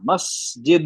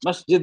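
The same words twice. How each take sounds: First: The word is said slowly and calmly. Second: The word is said quickly and rushed. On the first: The speaker calls it right. "आराम से पढ़ना है" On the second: The speaker calls it wrong. "ऐसे नहीं"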